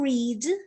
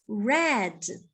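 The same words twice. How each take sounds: First: It is the present tense pronunciation. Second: It is the past tense pronunciation. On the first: The action happens now or habitually. "Verbo read continua sendo escrito da mesma forma" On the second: The action happened in the past. "mas nós vamos pronunciar read"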